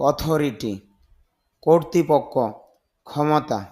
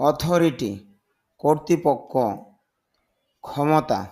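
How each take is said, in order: Both takes have the same delivery.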